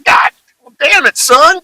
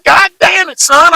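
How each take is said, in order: First: An angry country dad yelling, rising on damn. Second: An angry country dad hitting God hard. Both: Retold or imitated. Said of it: "make 'em talk like a total hick".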